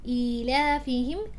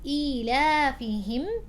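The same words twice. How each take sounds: First: The long ya sound is clearly voiced. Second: The same.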